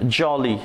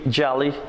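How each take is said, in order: First: Said in the usual way. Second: Jolly with an American open "ah" vowel; American accent. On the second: Shown as a demonstration. Teacher showing learners the American variant, American accent. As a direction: say jolly the American way, like "jah-lee". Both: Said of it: "In American accent".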